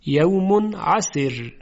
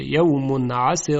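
First: عسر ending in a thin ر, tarqiq; light r at stop. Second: عسر with a thick ر as if joined; heavy r when joined. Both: Shown as a demonstration.

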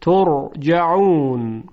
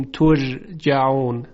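First: ترجعون slowly, with a thick, heavy r. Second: ترجعون with a thin, light r; light, fronted ر in ترجعون; wrong light ra. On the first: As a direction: correct it: full, heavy ر in ترجعون. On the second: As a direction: show the mistake: thinned-out ر in ترجعون. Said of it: "هیچ وقت نمیگوییم". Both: Shown as a demonstration.

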